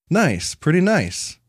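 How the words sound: It sounds warm and enthusiastic. The place is genuinely great. "the inflection makes a big difference here"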